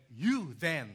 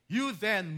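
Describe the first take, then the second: First: Said in the usual way. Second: "you" hit higher and louder; stress on you. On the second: Acted. Preacher repeating Paul's call to Timothy, "you" stressed. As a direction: lean hard on "you". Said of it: "the word "you" was emphatic".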